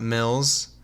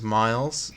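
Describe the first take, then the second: First: The vowel sounds short, as in ill. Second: The vowel sounds like the word eye. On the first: The speaker calls it wrong. "and not Mills, as most people pronounce it" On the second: The speaker calls it right. "my name M I L Z is Miles"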